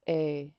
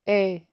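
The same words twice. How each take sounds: First: The vowel is said with a low tone. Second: The vowel is said with a high tone. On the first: "instead of saying a" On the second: "you would say a"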